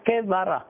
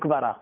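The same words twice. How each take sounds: First: A short vowel is heard after the first consonant. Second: The first vowel is dropped, starting with a cluster. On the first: This is the biblical form of the word. "אם אתה בא בלשון המקרא תמצא, אתה צריך לומר כברה" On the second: This is how everyone says it in everyday speech. "כולם אומרים כברה"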